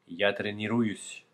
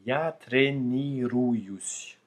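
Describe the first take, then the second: First: The phrase is spoken quickly. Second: The phrase is spoken slowly and carefully. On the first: "à dire les choses plus rapidement" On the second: "pour le dire plus lentement, plus simplement"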